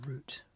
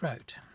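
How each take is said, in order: First: It is said with a British accent. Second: It is said with an American accent.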